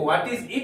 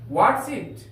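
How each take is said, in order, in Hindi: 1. शब्द 'is' पूरा बोला जाता है। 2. शब्द 'is' 'what' के साथ जुड़कर संकुचित हो जाता है। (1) "हम लोग ऐसे वो व्हाट इज इट भी बोल सकते हैं" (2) "स्पोकन में बोलेंगे ना व्हाट्स इट"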